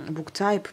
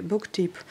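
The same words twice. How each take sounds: First: Book type, with type said the English way as "taïp", a bit slower; trying the English. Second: Book type, with type said the French way as "teep"; French-style reading. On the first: Correcting herself for viewers, book type tried in English. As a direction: tries "book type" again the English way, unsure. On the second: Reading the notebook's headings to her viewers, Book type with a French type. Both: Shown as a demonstration. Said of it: "ou type, je sais plus trop".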